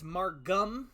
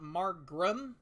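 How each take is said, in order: First: The name is said without an R after G. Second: The name is said with an R after G. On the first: The speaker calls it right. "I do know it is Margum" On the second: The speaker calls it wrong. "not Margrum"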